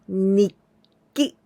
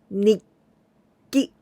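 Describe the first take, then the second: First: A short held stop comes before 'ki'. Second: The same.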